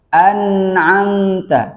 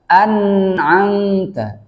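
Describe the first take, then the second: The two takes are said the same way.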